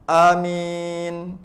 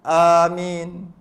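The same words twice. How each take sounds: Both takes have the same delivery.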